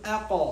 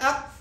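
First: The final q is released with an echoing bounce. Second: The final q is cut off with no sound. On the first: The speaker calls it right. "qalqala sifatini yordamga olib kelib aqo dedim" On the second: The speaker calls it wrong. "tovush chiqmayapti, havo ham chiqmayapti"

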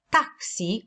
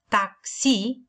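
First: The stress is on the first syllable. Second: The stress is on the second syllable. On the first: The speaker calls it wrong. "cu accentul pe prima silabă" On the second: The speaker calls it right. "varianta corectă este a chemat un taxi"

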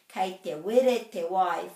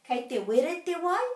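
First: The voice falls at the end. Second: The voice rises at the end. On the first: It states that the water is hot. "full stop, the water is hot" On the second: It asks whether the water is hot. "if you want to change this to a question, it's just with a question mark"

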